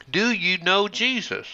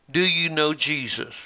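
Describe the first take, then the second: First: "Do" lifted and pressed at the start; stress on do. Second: "you" pressed a little harder than the rest; stress on you. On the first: Preacher quoting evangelists to the congregation, stress on "Do". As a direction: open on a pushed "Do", the rest falling. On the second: Preacher quoting evangelists to the congregation, stress on "you". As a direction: lean lightly on "you" as a preacher asking the crowd. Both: Retold or imitated. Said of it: "the following question in various ways".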